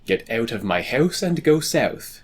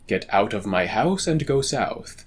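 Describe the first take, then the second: First: It is spoken in an Eastern Canadian accent. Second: It is spoken in a standard American accent. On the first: "in the Eastern Canada accent" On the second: "in a standard American accent"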